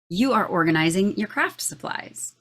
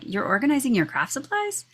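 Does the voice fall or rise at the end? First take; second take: fall; rise. First: The voice falls at the end like a statement. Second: The voice rises at the end like a question. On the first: It states what the child is doing. The speaker calls it right. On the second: It sounds like asking what the child is doing. The speaker calls it wrong.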